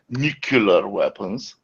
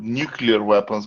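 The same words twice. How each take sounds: First: The word nuclear is pronounced the Southern dialect way. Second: The word nuclear is pronounced the standard way. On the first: The speaker calls it wrong. "saying the wrong way" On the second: The speaker calls it right. "doesn't use the word nuclear weapons"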